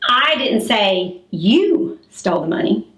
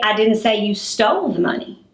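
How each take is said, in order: First: The word you carries the strongest stress. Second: The word stole carries the strongest stress. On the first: Someone else was accused of taking it. "that means that I said somebody else stole the money" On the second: Something else was done with the money. "Maybe I said you misplaced the money"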